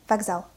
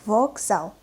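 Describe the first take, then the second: First: "Вокзал" quickly, first O reduced to A; fast, natural reading. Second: "Вокзал" slowly, with a full O in the first syllable; slow, articulated reading. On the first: Teacher reads as a native, "Вокзал" fast with O as A. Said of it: "I pronounced the letter O as A". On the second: Teacher models for learners, "Вокзал" slow with a clear O. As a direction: spell out "Вокзал" syllable by syllable as written. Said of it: "what is articulated pronunciation". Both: Shown as a demonstration.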